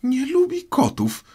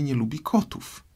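First: Very high, loud indignant squeal; shrill mousy outburst; piercing, passionate cry. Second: Put-on high, polite girl's apology; apologetic Alice. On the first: A narrator's reading. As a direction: shriek it as an outraged mouse. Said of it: "krzyknęła przeraźliwie i z pasją mysz". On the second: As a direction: gently admit the slip in a raised voice. Alice apologising to offended mouse.

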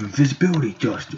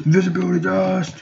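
First: Said in the usual way. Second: High-pitched showy cry; power-move call. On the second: Pretend. Player invoking invisibility, high power call. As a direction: sing out the power well above your usual pitch. Calls out the power just named.

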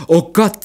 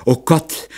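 First: Oh Gott again, higher and louder, rising in panic; second oh Gott, a higher louder panicked wail. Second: A frightened groaning oh Gott, rising at the end; first oh Gott, a rising fearful moan. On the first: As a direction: let the fear break out on Gott. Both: A narrator's reading. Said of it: "Die Glesberg stöhnte".

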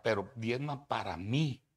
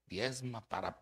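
First: Mí lifted on a rising tune; stress on mí. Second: Said in the usual way. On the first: Shown as a demonstration. Preacher mocking greedy pastors, stress on mí. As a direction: lean on the word mí, rising.

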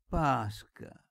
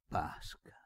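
First: Higher, louder calling; old man calling his niece louder; called name. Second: Whispered, barely voiced; whispered name. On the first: Acted. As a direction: call out to her firmly. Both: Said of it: "cominciò il vecchio".

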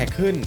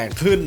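The two takes are said the same way.

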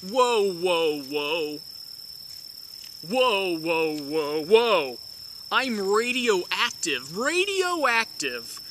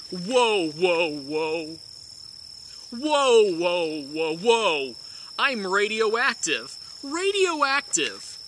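No difference in how they are said.

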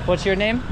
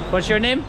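Both takes have the same delivery.

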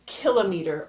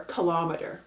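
First: Kilometer said KIL-uh-mee-ter; stress on first syllable. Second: Kilometer said kuh-LOM-uh-ter; stress on second syllable. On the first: Teacher showing learners one way to pronounce it, kilometer as KIL-o-meter. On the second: Teacher showing learners the other way to pronounce it, kilometer as kuh-LOM-uh-ter. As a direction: hit the LOM in kilometer, reduced final syllables. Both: Shown as a demonstration. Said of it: "depending on how you pronounce it".

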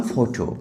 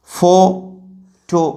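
First: Said in the usual way. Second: ফটো split into "fo... to" with a long pause; ফটো broken slowly into its two parts; syllable by syllable. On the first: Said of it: "একটা শব্দ আমি বললাম". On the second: Shown as a demonstration. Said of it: "এটা disyllabic হতে হবে".

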